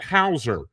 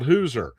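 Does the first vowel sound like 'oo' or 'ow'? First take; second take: ow; oo. First: The first vowel sounds like 'ow'. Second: The first vowel sounds like 'oo'. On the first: The family line traces back to enslaved people. "they say it Hauser" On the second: "not Hooser"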